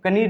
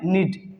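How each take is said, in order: First: The word starts with a k sound. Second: The word starts with n, no k. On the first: The speaker calls it wrong. "कनीड नहीं पढ़ेंगे, जो कि गलत sound हो जाएगा" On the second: The speaker calls it right. "इसको क्या बोलेंगे? नीड"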